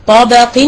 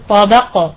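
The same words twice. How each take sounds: First: "طبق" said with tanween still on it; wrong tanween. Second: "طبق" stopped on a sukun with no tanween; pause form. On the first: Teacher shows the wrong stop on "طبق". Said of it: "لا أقول طبق". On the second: Teacher shows the correct stop on "طبق". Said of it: "في الوقف أقول طبق". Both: Shown as a demonstration.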